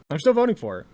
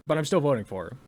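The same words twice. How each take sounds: First: I'm still voting for her, with still stressed and said up and loud; emphatic repeat. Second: Said in the usual way. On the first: Real, not acted. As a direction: still pushed higher and louder.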